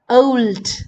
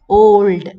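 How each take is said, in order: First: The vowel glides as a diphthong. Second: The vowel is a single pure sound. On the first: "These are diphthongs" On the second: "It becomes monophthongs"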